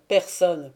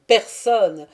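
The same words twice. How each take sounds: First: « personne » martelé avec fermeté; « personne » appuyé, retombant; répétition obstinée. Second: « personne » crié bien plus fort, intonation descendante; « personne » lancé comme un défi, plus fort; répétition obstinée, plus forte. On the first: (« personne » dit fermement, en descendant) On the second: (« personne » martelé avec force) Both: Acted. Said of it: "répéta-t-il obstinément".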